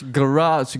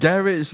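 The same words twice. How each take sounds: First: Garage said as guh-RAHSH; his usual pronunciation. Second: Garage tried as GARR-ish; British pronunciation attempt. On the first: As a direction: stress the second half of garage. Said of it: "How do you pronounce this word?". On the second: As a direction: copy Garage with stress up front. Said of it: "It's a garage". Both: Shown as a demonstration.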